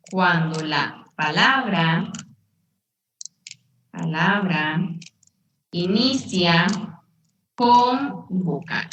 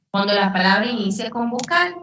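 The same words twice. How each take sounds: First: Halting, word-by-word dictation with long pauses; drawn-out words, pause after each chunk; slow dictation. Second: Said in the usual way. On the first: Shown as a demonstration. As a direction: dictate it slowly for note-takers, repeating as needed. Teacher dictates rule, then repeats it.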